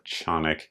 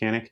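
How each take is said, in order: First: The name is said the original, non-American way. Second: The name is said the Americanized way. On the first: This is how the company itself says it. "apparently that is the correct pronunciation" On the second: This is the familiar American way of saying it. "I'm going to call it Canik because America"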